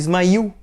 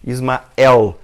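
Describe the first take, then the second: First: The vowel before the final L is 'i'. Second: The vowel before the final L is 'e'. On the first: This is how Arabic speakers say the name. "ele fala Ismail" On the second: This is not how Arabic speakers say the name. "ele não fala Ismael"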